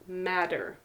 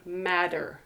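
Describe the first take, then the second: No difference in how they are said.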